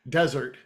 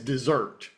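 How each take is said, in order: First: The stress is on the first syllable. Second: The stress is on the second syllable. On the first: It names a dry sandy region. The speaker calls it right. "the word desert" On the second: It sounds like the sweet course after a meal. The speaker calls it wrong. "pronounced the word desert as dessert"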